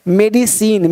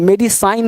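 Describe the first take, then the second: First: मेडिसिन ending in 'seen', no 'eye'; correct pronunciation. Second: मेडिसाइन ending in 'sign'; wrong pronunciation. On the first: Teacher modelling the exception for students, correct pronunciation. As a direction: say मेडिसिन with an 'ee' sound last. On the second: Teacher showing students a misreading, wrong pronunciation. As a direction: give मेडिसाइन with an 'eye' vowel at the end. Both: Shown as a demonstration. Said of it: "मेडिसाइन नहीं बोलेंगे".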